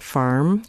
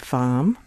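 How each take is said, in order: First: The R after the vowel is pronounced. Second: The R after the vowel is dropped. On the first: "instead of saying farm" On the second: "the lack of a post-vocalic R"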